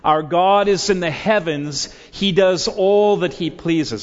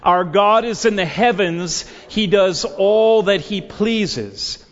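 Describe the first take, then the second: First: It is said in a plain, calm way. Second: It is said with strong, fervent energy.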